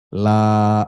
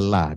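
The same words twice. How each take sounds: First: The vowel in la is held long. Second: The vowel in la is cut short. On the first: It means not, as in I will not worship. The speaker calls it right. "la-nya itu dibaca panjang" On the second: It becomes an emphatic particle instead of a negation. The speaker calls it wrong. "dipendekkan membaca la"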